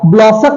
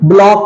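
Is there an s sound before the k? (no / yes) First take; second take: yes; no. First: An s sound is heard before the k. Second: No s sound is heard before the k. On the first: The speaker calls it wrong. "ब्लॉसक नहीं है" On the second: The speaker calls it right. "ब्लॉक है"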